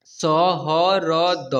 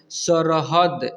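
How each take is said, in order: First: सहरद very slow, each letter separate; सहरद broken into drawn-out letters; spelled out letter by letter. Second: Said in the usual way. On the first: Shown as a demonstration. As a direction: sound out सहरद one long letter at a time. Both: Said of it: "इसे पढ़ेंगे".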